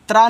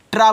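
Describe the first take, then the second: First: Tongue on the teeth for त्रा; wrong TR sound. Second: ट्रा with a retroflex t; correct TR sound. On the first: Teacher shows the sound to avoid, त्रा with dental t. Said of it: "त्रा नहीं". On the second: Teacher shows the English TR sound, ट्रा with retroflex t. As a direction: curl the tongue back for ट्रा. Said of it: "ट्रा बनेगा यहाँ English में". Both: Shown as a demonstration.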